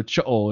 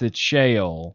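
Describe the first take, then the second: First: The word is said with a Hebrew pronunciation. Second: The word is said with a Southern pronunciation. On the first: "And if you're Hebrew" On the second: "So if you're in the South"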